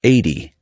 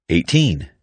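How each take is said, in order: First: "Eighty" stressed up front, ending in short "dee". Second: Put-on "Eighteen" with a crisp T and long "teen"; teen ending. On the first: Pronunciation teacher contrasting numbers, "Eighty" with light "dee" ending. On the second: Pronunciation teacher contrasting numbers, "Eighteen" with clear long "teen". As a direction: say "Eighteen" with a full second syllable. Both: Shown as a demonstration.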